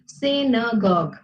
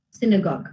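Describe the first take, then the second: First: "synagogue" slowly split into sy-na-gogue; syllable-by-syllable pronunciation. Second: Said in the usual way. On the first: Shown as a demonstration. Teacher shows the class how "synagogue" is pronounced, syllable by syllable. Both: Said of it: "It's pronounced as".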